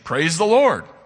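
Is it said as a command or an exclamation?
exclamation. It is said as a joyful exclamation.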